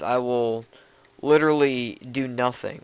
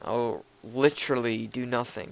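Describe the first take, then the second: First: It is said in the speaker's ordinary accent. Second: It is said in a put-on British accent.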